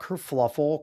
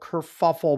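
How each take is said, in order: First: An extra L sound follows the F. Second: No L sound follows the F. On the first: The speaker calls it wrong. "not kerfluffle" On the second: The speaker calls it right.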